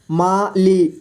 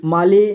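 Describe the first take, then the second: First: माली split into मा, ली; syllable by syllable. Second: Said in the usual way. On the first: Shown as a demonstration. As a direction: separate मा and ली in माली. (माली को तोड़कर: मा, ली) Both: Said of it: "थोड़ा fast पढ़ेंगे".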